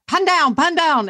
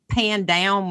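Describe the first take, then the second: First: It is said with a British accent. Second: It is said with an American accent.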